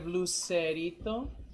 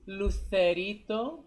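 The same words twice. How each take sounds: First: The c is said as an 's' sound. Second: The c is said as a 'th' sound.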